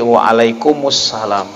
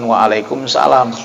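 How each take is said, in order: First: An extra u vowel links alaikum to salam. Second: Alaikum runs straight into salam without a vowel. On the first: The speaker calls it right. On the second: The speaker calls it wrong. "yang menjawabnya itu bukan waalaikumsalam"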